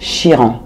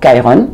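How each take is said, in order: First: The name is pronounced the French way. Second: The name is pronounced the English way.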